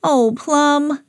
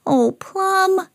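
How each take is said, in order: First: Higher, drawn-out mild reproach; Gracie's dismay. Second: Very high disappointed reproach; high-pitched, drawn-out dismay; Sam. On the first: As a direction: sigh the words at a naughty dog. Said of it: "said Gracie". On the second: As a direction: lament a naughty dog in a high voice. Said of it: "said Sam". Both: A narrator's reading.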